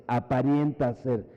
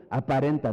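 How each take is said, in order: First: Aparenta said as apariénta, with an extra i before the e; slip of the tongue. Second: Aparenta said cleanly as a-pa-ren-ta, no i; corrected word. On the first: Preacher trips on the word, aparenta said apariénta. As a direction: aparenta slurred toward apariencia, apa-rien-ta. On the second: Preacher corrects himself, aparenta said a-pa-ren-ta. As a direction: aparenta put right, plain a-pa-ren-ta. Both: Real, not acted. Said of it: "no es aparenta".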